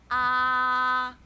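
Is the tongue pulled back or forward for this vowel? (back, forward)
forward. The vowel is made with the tongue further forward.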